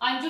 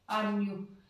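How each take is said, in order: First: The middle consonant is a j sound. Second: The middle consonant is a y sound. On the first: The speaker calls it wrong. "अंजू नहीं बोलते इस नाम को" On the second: The speaker calls it right. "जे को ये बना देते हैं"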